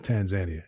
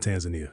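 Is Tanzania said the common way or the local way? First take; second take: local; common. First: It uses the pronunciation that locals use. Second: It uses a pronunciation that locals do not use. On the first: The speaker calls it right. "It's Tanzania. At least that's what the people there say" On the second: The speaker calls it wrong. "It's not Tanzania"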